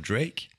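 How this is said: The name is said with an English accent. "je dis les mots en anglais avec un accent anglais"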